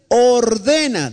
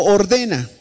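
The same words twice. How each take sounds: First: Ordena stretched out slowly, falling at the end; slow drawn-out command. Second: Said in the usual way. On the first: Shown as a demonstration. Preacher models ordena for the church to repeat, slow and solemn. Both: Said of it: "diga conmigo".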